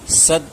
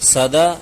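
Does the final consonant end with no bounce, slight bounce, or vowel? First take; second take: no bounce; vowel. First: The final consonant ends with no bounce at all. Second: The final consonant is followed by a full vowel. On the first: "सद नहीं" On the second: "सदा नहीं"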